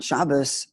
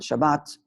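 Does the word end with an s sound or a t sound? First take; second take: s sound; t sound. First: The word ends with an s sound. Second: The word ends with a t sound.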